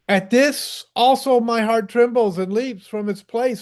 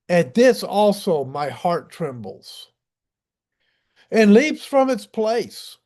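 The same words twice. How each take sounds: First: The sentence is read at a fast pace. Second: The sentence is read at a slow pace. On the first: The speaker calls it wrong. "I'm going too fast" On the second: The speaker calls it right. "Let me slow down"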